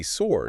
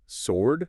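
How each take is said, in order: First: "sword" with the w pronounced; sounded W. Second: Slow "sword" with silent w; correct pronunciation. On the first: Co-host showing the tempting error, mispronunciation. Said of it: "we want to say sword". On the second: Co-host correcting the error, slow correct pronunciation. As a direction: say "sword" as sord, drawn out. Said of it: "but it's sword". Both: Shown as a demonstration.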